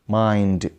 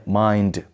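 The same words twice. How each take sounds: The two takes are said the same way.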